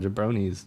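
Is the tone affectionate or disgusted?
affectionate. It is said in a light, affectionate tone. The person is teased as a harmless silly guy. "What a jabroni, you know, silly guy"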